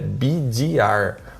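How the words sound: The letters are said with English letter names. This is the proper form of the term. The speaker calls it right. "a forma correta é B D R"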